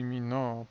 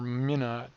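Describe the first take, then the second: First: The name is said with a French pronunciation. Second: The name is said with an English pronunciation. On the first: "French pronunciation" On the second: "it's probably Minot"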